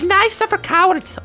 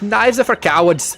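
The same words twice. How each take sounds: First: The voice is put on as slightly feminine. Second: The voice is the speaker's plain, unsoftened voice. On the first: "give her like a slightly feminine voice" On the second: "I can't do this accent really"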